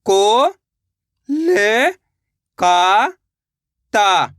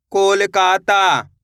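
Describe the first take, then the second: First: Kolkata split into को, ल, का, ता with long pauses; syllable by syllable. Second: Said in the usual way. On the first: Shown as a demonstration. Teacher breaking a word down for learners, Kolkata read slowly syllable by syllable. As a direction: sound out Kolkata one drawn-out syllable at a time. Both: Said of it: "एक एक अक्षर का उच्चारण करके".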